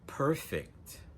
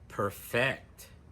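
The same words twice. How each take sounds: First: The stress is on the first syllable. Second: The stress is on the second syllable. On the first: It is used as an adjective. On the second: It is used as a verb.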